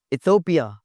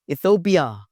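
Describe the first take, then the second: No difference in how they are said.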